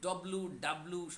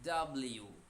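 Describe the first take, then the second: First: The letter is said hard and clipped. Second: The letter is said smoothly and fully. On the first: The speaker calls it wrong. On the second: The speaker calls it right.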